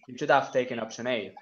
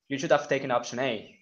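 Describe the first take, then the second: First: The h in 'have' is dropped. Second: The same.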